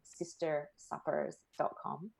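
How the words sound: It is said in an American accent.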